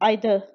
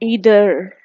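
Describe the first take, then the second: First: It is said in a British accent. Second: It is said in an American accent. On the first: "in British English it is either" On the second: "In American English it is either"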